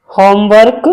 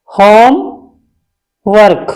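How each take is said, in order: First: Said in the usual way. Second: Homework drawn out slowly, word by word; slow spelled-out homework. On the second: Shown as a demonstration. Teacher drawing out homework slowly for students. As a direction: stretch homework out for the class.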